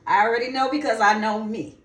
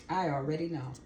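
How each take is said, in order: First: Louder, emphatic repeat. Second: Said in the usual way. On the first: Real, not acted. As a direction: say it again with conviction.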